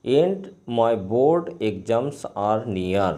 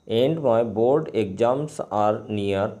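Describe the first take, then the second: No difference in how they are said.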